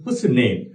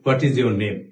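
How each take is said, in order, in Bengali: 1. 'What is' সংক্ষিপ্ত হয়ে এক সিলেবলে দাঁড়ায়, 'what's'। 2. দুটো শব্দ 'what is'-ই পুরোপুরি বলা হয়। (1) "তারা বলছে" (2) "এভাবে করে বলি। আসলে নেটিভ স্পিকাররা যারা আছে তারা কিন্তু এইভাবে করে কথাটা বলে না।"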